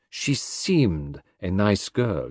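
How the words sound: The stress is on the word seemed.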